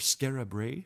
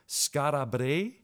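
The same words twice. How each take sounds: First: The name is pronounced casually, in an everyday way. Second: The name is pronounced carefully, attempting the local form. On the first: The speaker calls it wrong. "for us non-properly pronunciation type people" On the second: The speaker calls it right. "I'm going to try to pronounce it properly"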